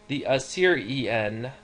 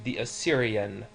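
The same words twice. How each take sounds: First: Assyrian is said with four separate syllables. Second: Assyrian is said with three run-together syllables. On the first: "technically you could pronounce it with four" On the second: "most of us pull those together into"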